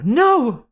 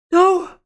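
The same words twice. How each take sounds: First: Yell. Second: Very high, loud cry; yell. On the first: Annabeth yelling as she charges, forceful shout. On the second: Annabeth yelling as she charges, desperate shout. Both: A narrator's reading. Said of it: "Annabeth yelled".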